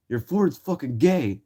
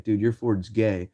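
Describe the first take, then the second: First: Taunting yell. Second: Said in the usual way. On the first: Retold or imitated. Teens taunting a man about his truck, slow silly voice.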